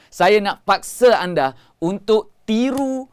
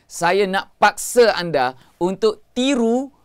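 The two takes are said the same way.

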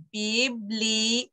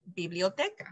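First: "Biblioteca" slowly broken into syllables; slow teaching pronunciation of "Biblioteca". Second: Said in the usual way. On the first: Shown as a demonstration. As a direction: sound out bi, bli, o, te, ca. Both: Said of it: "Biblioteca is a long word".

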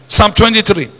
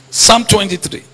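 No difference in how they are said.

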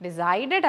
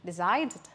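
First: Decided said wrongly, loud with a hard "ded" ending. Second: Decided with a light clipped final d; correct decided. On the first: Teacher showing the mistake to avoid, loud. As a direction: stamp the wrong "Decided" with a heavy retroflex d. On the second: Teacher modelling the right ending for students. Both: Shown as a demonstration. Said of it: "Decided അല്ല".

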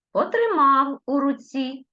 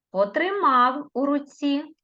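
First: Потримав у руці high, Потримав stressed; Потримав said high and a bit loud; stressed dictation. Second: Потримав у руці high, Потримав stressed; Потримав with a clear stress; stressed dictation. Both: Shown as a demonstration. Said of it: "я по-різному називала слова".

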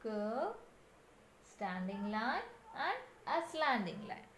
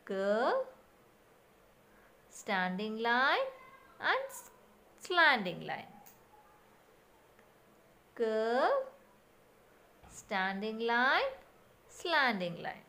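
First: Much softer recital of "Curve, standing line"; soft repeat. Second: Slow demo steps. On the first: Teacher repeats the writing steps for children, soft recital. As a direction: murmur the steps quietly to yourself. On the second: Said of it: "like this". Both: Shown as a demonstration.

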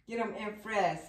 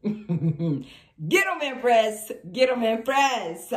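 First: Said in the usual way. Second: Loud, drawn-out hype; rousing loud cheer. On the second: Real, not acted. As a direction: egg her on at full volume. Cheers the Empress on.

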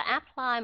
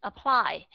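First: Apply first flat, then with aspirated p; apply, second time with aspirated p; wrong then right. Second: Apply with aspirated p, uh-PLY; Apply, weak a, puffed p; correct pronunciation. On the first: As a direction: contrast apply plain and apply with a puff on p. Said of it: "không phải là apply mà nó là apply". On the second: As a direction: say Apply with one p, stress on PLY. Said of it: "nó là apply". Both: Shown as a demonstration.

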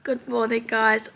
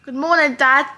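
First: Said in the usual way. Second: Loud call across the room. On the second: Real, not acted. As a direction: call it out to Dad. Calling out to her dad.

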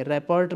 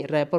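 First: रैपर्ट with the final t sounded out; wrong pronunciation. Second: रैपर said with the final t silent, ending on the r. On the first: Teacher shows the students the mistake, रैपर्ट with a spoken t. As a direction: say रैपर्ट as spelt, t clearly at the end. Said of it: "मत पढ़ेंगे". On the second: Teacher shows the students the right way, रैपर with silent t. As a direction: pronounce रैपर as "rapport", no t at the end. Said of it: "टी silent खा जाएंगे". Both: Shown as a demonstration.

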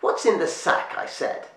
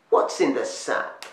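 First: A crone losing patience and repeating her demand; insistent witch. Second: Higher, slow, breathy witch rasp; a crone drawing out the question with menace; old witch demanding. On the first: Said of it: "The old woman had grabbed". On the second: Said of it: "A twisted old woman". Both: A narrator's reading.

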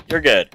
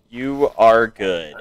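First: Said in the usual way. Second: "You are good" drawn out slowly, leaning on "are"; slow, deliberate "are" in "You are good"; slow stress on are. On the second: Shown as a demonstration. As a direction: stretch it out and lean hard on "are" in "You are good".

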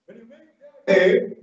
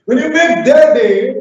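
First: Said in the usual way. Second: "When you make their day" said louder and higher, rising on "their"; emphatic repeat. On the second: Shown as a demonstration. Teacher repeats the slide title to the trainees, emphatic. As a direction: lift "their" up and out to stress it. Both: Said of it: "I said, "Make their day".

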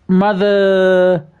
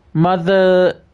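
No difference in how they are said.

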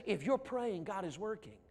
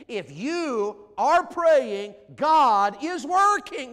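First: Said in the usual way. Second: "if you are praying, God is working" drawn out very slowly and loud; emphatic slow declaration. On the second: Shown as a demonstration. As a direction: hammer each word of "God is working" to the crowd. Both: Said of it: "can I just say it like this?".

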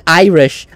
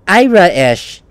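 First: Said in the usual way. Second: "Ira-ish" drawn into separate syllables, imitating Leo's accent; imitated accent pronunciation. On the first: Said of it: "It's kinda like an Irish accent". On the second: Player echoing how the character says Irish, "Ira-ish" pulled apart. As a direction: say "Ira-ish" with a split, lilting middle vowel. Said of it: "clued me in and I was like".

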